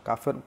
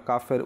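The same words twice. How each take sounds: Both takes have the same delivery.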